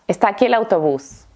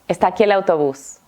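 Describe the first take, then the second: Both takes have the same delivery.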